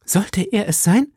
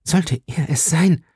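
First: High, hopeful question rising at the end; breaking out in eager hope; excited cry. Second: Slow, halting question in mild shock; stunned, hesitant disbelief; stammering. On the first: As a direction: ask it eagerly, pitched way up. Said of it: "rief Madame Bonacieux und stürzte ans Fenster". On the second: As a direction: draw it out haltingly, higher and rising. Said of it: "stammelte sie". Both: A narrator's reading.

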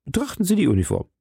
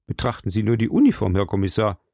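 First: High, rapid, emphatic appeal; urgent insistence. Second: Quick, mildly pressing appeal; insistent urging. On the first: Landlord repeats his proof to commissioner, urgent and high. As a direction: press it urgently, pitch raised. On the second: Landlord directs the commissioner to the uniform, quick and insistent. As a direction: point out the proof briskly. Suspect urges commissioner to look. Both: Acted.

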